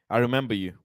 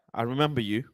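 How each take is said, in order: Both takes have the same delivery.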